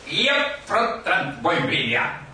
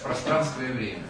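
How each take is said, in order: First: A Spanish accent adds a vowel before the cluster. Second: Plain Russian pronunciation with no added vowel. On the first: A Spanish speaker is trying to say it in Russian. The speaker calls it wrong. "Он опять, еп, про транспоймения" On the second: This is the intended Russian phrase. The speaker calls it right. "Это, оказывается, пространство и время"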